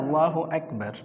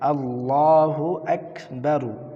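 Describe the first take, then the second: First: The last word ends on the r consonant. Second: The last word ends with a short u vowel. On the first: The reader stops at this word. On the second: The reading continues without stopping.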